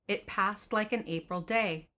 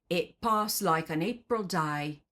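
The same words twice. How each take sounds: First: It is read in a standard accent. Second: It is read in a Cockney accent. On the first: "in standard English, those lyrics would read" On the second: "Forgive my horrible Cockney accent"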